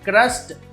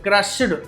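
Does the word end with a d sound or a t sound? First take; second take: t; d. First: The ending is pronounced with a t sound. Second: The ending is pronounced with a d sound. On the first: The speaker calls it right. "టా చెప్పాలి" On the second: The speaker calls it wrong. "అలా కాదు"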